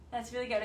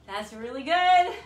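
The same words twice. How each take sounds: First: Said in the usual way. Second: Loud, slow, stretched-out praise; big hype for the class after a tough set; excited praise. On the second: Real, not acted. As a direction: cheer the class on.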